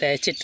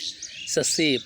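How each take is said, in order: First: The word ends with a 't' sound. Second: The word ends with a vowel sound. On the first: The speaker calls it wrong. "सैचेट लिखते हैं" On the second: The speaker calls it right. "ससे पढ़ते हैं"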